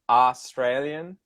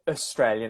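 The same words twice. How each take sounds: First: The first syllable has a full vowel. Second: The first syllable is reduced to a schwa. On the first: This is how Americans say it. "Americans always say Australian" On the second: This is how Australians say it. "I would use a schwa"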